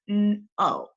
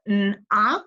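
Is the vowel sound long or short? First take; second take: long; short. First: The vowel is long, saying its name. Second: The vowel is short, like in 'not'. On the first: The speaker calls it right. "You're going to make the long vowel sound" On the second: The speaker calls it wrong. "instead of"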